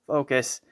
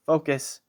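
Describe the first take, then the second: No difference in how they are said.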